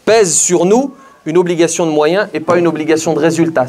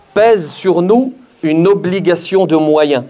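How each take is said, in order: First: Said in the usual way. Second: Slow, deliberate, each word weighed; slow emphasis. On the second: Shown as a demonstration. Preacher pressing the duty on his audience, slow and weighty. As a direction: drive the phrase home slowly. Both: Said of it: "Vous entendez?".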